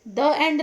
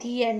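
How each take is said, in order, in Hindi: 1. 'The' को छोटी uh स्वर के साथ बोला जाता है। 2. 'The' को लंबी ee स्वर के साथ बोला जाता है। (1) "द एंड नहीं बोलते हैं" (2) "दी एंड हुआ, द एंड नहीं बोलते हैं, दी एंड बोलते हैं"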